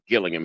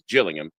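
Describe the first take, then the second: First: It begins with a hard G sound. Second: It begins with a soft J sound. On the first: The speaker calls it wrong. "I'm being corrected here because I pronounce it Gillingham" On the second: The speaker calls it right. "It's a G, but it's, it's Gillingham"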